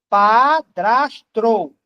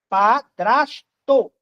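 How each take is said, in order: First: The last syllable has an extra r: tro. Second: The last syllable has no extra r: to. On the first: The speaker calls it wrong. "penso que eu estou dizendo padrastro" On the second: The speaker calls it right. "É padrasto. Não tem T R O"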